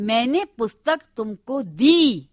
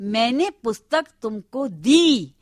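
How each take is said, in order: First: The word दी is stressed. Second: The word दी is stressed.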